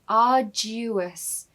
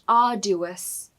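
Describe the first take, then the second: First: The D is followed by a Y sound. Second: The D is said without a Y sound. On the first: The speaker calls it right. "the D U in the middle of the word almost has a little Y in the middle" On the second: The speaker calls it wrong. "It's not arduous"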